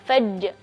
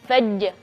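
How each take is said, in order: The two takes are said the same way.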